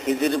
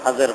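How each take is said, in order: First: The vowels are i and i, khijir. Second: The vowels are a and a, khajar. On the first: "খিজির বলাও সহি" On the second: "বেশি সহি হলো খাজর বলা"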